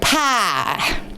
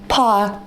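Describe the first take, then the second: First: Indiana accent, said as in that region. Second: British accent, the vowel with no glide. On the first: "Where my mom grew up in Indiana, it'd be like pie" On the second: "if you're British, there's no Y in pie, because it's pa"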